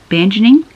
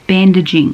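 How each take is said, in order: First: "Bandaging" garbled as "banjening", rising questioningly; puzzled misreading. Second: Said in the usual way. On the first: Real, not acted. Reader tripping over a word in the book, puzzled misreading of "Bandaging" as "banjening". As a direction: stumble over "Bandaging" as "ban-jen-ing", voice lifting.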